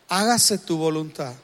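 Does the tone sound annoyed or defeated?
defeated. It sounds defeated and powerless.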